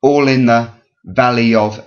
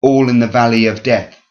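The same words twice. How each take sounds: First: ALL in the, VALley of, broken into two threes; two dactyls only. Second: ALL in the VALley of DEATH, with death as an extra beat; metrical beat. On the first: Teacher leaving off the last word, two dactyls only. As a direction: beat all and valley, stop short after of. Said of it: "and death stands out". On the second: Teacher showing the odd word out, metrical beat. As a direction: chant it, landing on death. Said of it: "death stands out". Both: Shown as a demonstration.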